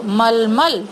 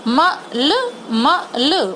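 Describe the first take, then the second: First: मलमल said whole and quick; blended word. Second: मलमल drawn out very slowly; slow sounded-out word. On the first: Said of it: "तीनों को मिला के". (मलमल को मिलाकर बोलना) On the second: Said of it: "उसका साउंड स्लो बोल रही हूँ". (मलमल को धीरे-धीरे बोलना) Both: Shown as a demonstration.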